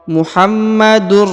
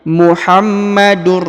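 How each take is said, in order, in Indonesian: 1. Bunyi n melebur ke dalam r. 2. Bunyi n melebur ke dalam r.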